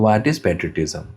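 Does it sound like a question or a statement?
statement. It is said flatly, like a statement.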